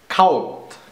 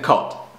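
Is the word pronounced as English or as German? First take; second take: German; English. First: It is pronounced as a German word. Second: It is pronounced as an English word.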